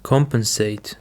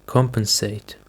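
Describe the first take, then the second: First: COMpensate, first syllable stressed. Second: COMpensate, stress held on COM; stress on first syllable. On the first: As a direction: hit COM in "Compensate". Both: Shown as a demonstration. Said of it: "The stress is on the first syllable".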